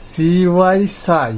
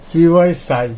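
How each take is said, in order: First: CY সাই drawn out slowly, letter then sound; slow demo. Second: Said in the usual way. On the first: Shown as a demonstration. Teacher slowly modelling CY সাই for students.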